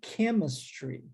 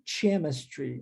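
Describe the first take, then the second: First: The word begins with a k sound. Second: The word begins with a ch sound. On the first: The speaker calls it right. "nós pronunciamos chemistry" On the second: The speaker calls it wrong. "não chemistry"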